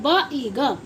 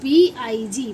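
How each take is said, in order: First: Each letter is said as its short sound. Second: Each letter is said by its alphabet name. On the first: This is the current way of reading. The speaker calls it right. "अब स्कूलों में और classes में क्या पढ़ा जाता है" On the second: This is the older way of reading. The speaker calls it wrong. "पहले हम क्या पढ़ते थे स्कूल में"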